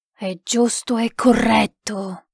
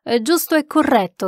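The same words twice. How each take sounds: First: GIUSTO E CORRETTO slow and measured, falling at the end; spirit voice. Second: Said in the usual way. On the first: A narrator's reading. Spirit confirms the sitter's words, slow and solemn. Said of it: "disse la voce".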